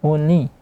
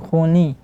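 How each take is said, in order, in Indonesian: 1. Suku kata kedua bersuara melalui hidung. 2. Suku kata kedua bersuara melalui hidung.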